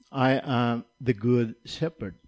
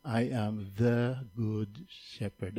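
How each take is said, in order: First: Said in the usual way. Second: "the" said slow and weighted, as in THE good shepherd; slow quiet stress on "the". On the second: Shown as a demonstration. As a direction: lean hard on "the" to mark the one true shepherd. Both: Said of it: "Emphasis on the word "the".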